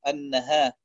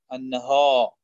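First: Said in the usual way. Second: النها with a thick, emphatic back alif; heavy alif. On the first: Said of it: "بدل أن يقول". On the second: Shown as a demonstration. Teacher showing the wrong heavy alif in النهار. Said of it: "يفخم الألف في محل الترقيق".

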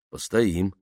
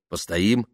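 First: Said in the usual way. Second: Постоим rising at the end as a question. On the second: A narrator's reading. Tamara asking Nikita to wait out rain, Постоим rising. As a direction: ask Постоим with a lifted ending. Suggests stopping, asks Nikita.

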